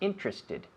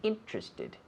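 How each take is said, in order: First: The word is said with three syllables. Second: The word is said with three syllables.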